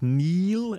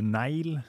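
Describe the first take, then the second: First: The name is said with an English pronunciation. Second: The name is said with a Norwegian pronunciation.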